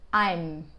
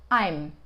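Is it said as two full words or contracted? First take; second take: contracted; contracted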